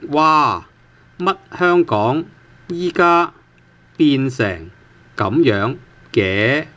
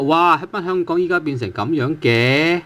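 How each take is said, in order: First: Word by word, with gaps between phrases; slow model reading. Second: Fluent surprised question in one run; mild surprise. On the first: Teacher reading the entire example sentence to learners, slowly and in pieces. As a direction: read it out slowly for learners, stretching the syllables. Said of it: "so the entire sentence reads". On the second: Teacher showing how 嘅 marks surprise, fluent and lightly surprised. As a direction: run it together as a mildly surprised remark. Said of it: "well, it's a surprise". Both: Shown as a demonstration.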